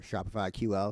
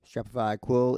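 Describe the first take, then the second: First: "Q L" pronounced letter by letter; spelled-out letters. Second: "quil" run together as one word, loud. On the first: Tutor offering the other pronunciation, "Q L" as separate letters. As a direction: say "Q L" as two letter names, cue-ell. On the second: Tutor reading out the language's name, "quil" as one word. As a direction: say "quil" as a single syllable, rhyming with will. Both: Shown as a demonstration. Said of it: "however you wanna pronounce it".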